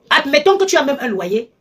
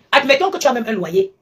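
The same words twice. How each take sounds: The two takes are said the same way.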